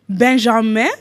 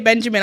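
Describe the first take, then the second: First: The name is pronounced the French way. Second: The name is pronounced the English way. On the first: "I'm saying it that way" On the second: "I would obviously say Benjamin. I'm from the U K"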